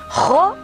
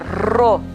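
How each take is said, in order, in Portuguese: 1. O R é feito na garganta. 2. O R é vibrado com a ponta da língua. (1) "não" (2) "é Ro"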